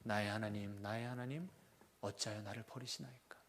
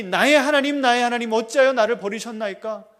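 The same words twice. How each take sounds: First: Low, soft and hushed, fading out; quiet, low reading of the psalm; quiet lament. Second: Much higher and louder, crying out; the Son on the cross, a loud anguished cry. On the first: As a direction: read the psalm's opening as a hushed, sinking lament. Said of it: "어떻게 시작하죠?". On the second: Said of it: "그 아들이". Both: Shown as a demonstration.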